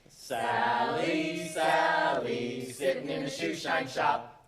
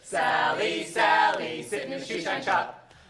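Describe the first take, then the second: First: It is said at a normal pace. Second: It is said a little faster.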